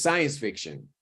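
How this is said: The second word is quick, relaxed and reduced. It sounds like natural everyday speech. The speaker calls it right. "Pero en la vida real es science fiction"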